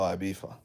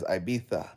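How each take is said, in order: First: The middle consonant is an f sound. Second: The middle consonant is a th sound. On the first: "we don't say T H's, we say F's" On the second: "they're hearing the Spanish people pronounce it as Ibiza"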